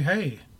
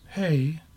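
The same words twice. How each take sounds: First: It is said with a joyful, warm tone. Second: It is said with a puzzled, confused tone.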